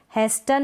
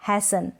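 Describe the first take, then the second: First: हेस्टन with t after s; T sounded. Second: हैसन with no t; silent T. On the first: Teacher showing the misreading, हेस्टन with t sounded. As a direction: say हेस्टन as "hes-tan". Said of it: "नहीं". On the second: Teacher correcting the misreading, हैसन without t. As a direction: say हैसन as "hay-san". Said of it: "इसको हम पढ़ेंगे". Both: Shown as a demonstration.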